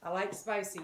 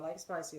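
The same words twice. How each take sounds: First: Said in the usual way. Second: "I like spicy" repeated lower and softer in a playful put-on accent. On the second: Shown as a demonstration. Cook repeating her line to viewers in a mock accent. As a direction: say "I like spicy" again, hamming up a folksy accent. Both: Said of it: "Of course, some accent".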